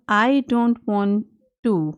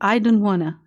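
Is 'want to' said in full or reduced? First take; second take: full; reduced. First: Want to is said in full, two words. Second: Want to is reduced into one word, wanna. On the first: "अब ये आप I don't वांट टू" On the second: "इसको I don't वांना"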